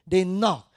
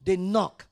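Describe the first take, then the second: No difference in how they are said.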